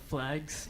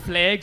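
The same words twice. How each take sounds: First: The word is said in a standard accent. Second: The word is said in a Northern Irish accent.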